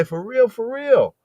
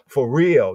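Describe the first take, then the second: First: "For real, for real" said much higher, the second "real" drawn out and punched; emphatic repetition. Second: Said in the usual way. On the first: Shown as a demonstration. Preacher showing how English repeats a word for emphasis, said high and slow. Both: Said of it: "what if you say".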